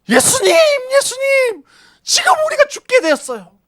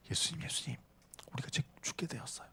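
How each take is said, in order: First: Desperate wailing shout, much higher and louder; crying out. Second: Breathy whisper, much softer. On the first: Disciples crying out to Jesus over the storm, wailing shout. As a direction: scream over the roaring waves. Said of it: "울부짖지 않았을까요?". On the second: Disciples whispering to sleeping Jesus in the storm. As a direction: whisper the plea so no one hears. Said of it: "이렇게 속삭였을까요?". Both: Shown as a demonstration.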